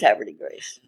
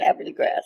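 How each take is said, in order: First: The last word sounds like grace. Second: The last word sounds like grass. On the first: This is the officially ruled way of saying the name. "said it was Haverty Grace" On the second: This is the old local way of saying the name. "If you're an old native, you say Haverty Grass"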